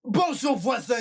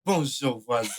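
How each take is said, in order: First: Higher-pitched model greeting to a neighbour. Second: Lower, falling answer to a greeting; neighbour's reply. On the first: Showing how to greet a neighbour, high demo greeting. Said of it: "c'est comme ça". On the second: Showing how the neighbour replies, lower demo reply. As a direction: answer back in a dropped pitch. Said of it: "et on répond". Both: Shown as a demonstration.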